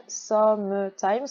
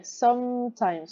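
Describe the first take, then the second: First: "sometimes" slowly split as some-uh-times; three-syllable reading. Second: "Sometimes" with a long hummed M running into T; slow two-syllable "Sometimes", silent middle E; linked M and T. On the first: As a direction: sound the silent E inside "sometimes". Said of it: "on écrit visuellement trois syllabes". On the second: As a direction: hold the M of "Sometimes", no E before the T. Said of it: "On enchaîne le M et le T". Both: Shown as a demonstration.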